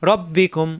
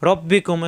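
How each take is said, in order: The two takes are said the same way.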